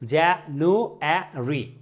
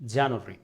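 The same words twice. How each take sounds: First: It is said in an American accent. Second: It is said in a British accent. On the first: "আমেরিকানরা বলছে" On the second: "ব্রিটিশরা বলছে"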